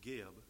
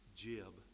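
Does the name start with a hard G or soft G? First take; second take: hard G; soft G. First: The name begins with a hard G sound. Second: The name begins with a soft J-like sound. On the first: "but Geb" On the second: "I want to say Jib ... soft G"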